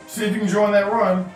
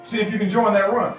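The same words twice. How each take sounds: The two takes are said the same way.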